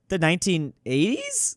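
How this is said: The voice rises at the end like a question. The answer is offered as an uncertain guess. The speaker calls it right. "that kind of sounds like a question"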